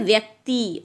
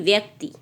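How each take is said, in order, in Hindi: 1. अंतिम i स्वर लंबा है। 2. अंतिम i स्वर छोटा है। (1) "बड़ी लगेगी" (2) "छोटी ही आ गई"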